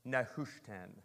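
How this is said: It is said with an attempted Hebrew pronunciation. "That's my best Hebrew"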